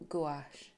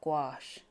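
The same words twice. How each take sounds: First: It is said in a non-American pronunciation. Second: It is said in an American pronunciation.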